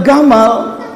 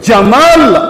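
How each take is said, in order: First: The name begins with a hard g sound. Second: The name begins with a j sound. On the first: "dibacanya Gamal" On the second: "Nama presiden mereka dulu Jamal"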